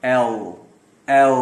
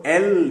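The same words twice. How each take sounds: First: "ایل" with sharp onset and heavy dark L; lower, drawn-out "ایل", thick L; thick letter L. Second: "ایل" with a light, clear L; light-L mispronunciation of "ایل"; thin letter L. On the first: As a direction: hold "ایل" on a heavy final L. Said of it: "موٹا پڑھا جائے گا". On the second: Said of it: "ایل بھی نہیں کہیں گے". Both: Shown as a demonstration.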